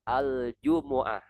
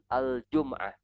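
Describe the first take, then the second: First: A u vowel follows the m sound. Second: No vowel follows the m sound. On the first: The speaker calls it right. "Mimnya berharokat dhammah. ... Ini yang sahih" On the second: The speaker calls it wrong. "Bukan al-jum'ah"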